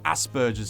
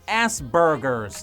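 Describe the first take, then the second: First: It uses the speaker's own non-American pronunciation. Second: It uses the American pronunciation of the word.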